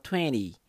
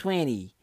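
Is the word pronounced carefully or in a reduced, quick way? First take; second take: reduced; reduced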